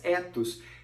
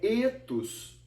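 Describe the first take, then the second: First: The first vowel is short and open. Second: The first vowel is long and closed.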